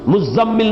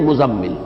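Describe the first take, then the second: First: The middle consonant is held long, doubled. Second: The middle consonant is short, not doubled. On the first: This is the majority reading. "नहीं" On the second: This is an alternative reading. "जा या दाल की तखफीफ के साथ है"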